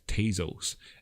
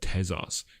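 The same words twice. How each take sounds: First: Tezos is said with an American accent. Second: Tezos is said with a non-American accent. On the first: "when it's in fact Tezos" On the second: "I've not got an American accent"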